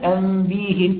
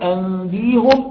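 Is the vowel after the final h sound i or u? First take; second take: i; u. First: The vowel after the h is i. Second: The vowel after the h is u. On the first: "أو بكسرها" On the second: "بضم الهاء"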